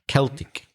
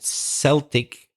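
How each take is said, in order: First: The word begins with a K sound. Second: The word begins with an S sound. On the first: It is the ordinary word. "the normal pronunciation of that word is with a K" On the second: It names a sports team. "when it's for sport, we pronounce it Celtic usually"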